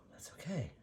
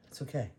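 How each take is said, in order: First: Reassuring herself in a whisper; real whispered self-calming. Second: Said in the usual way. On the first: Real, not acted. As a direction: soothe yourself, barely voiced. Calming herself over the paint.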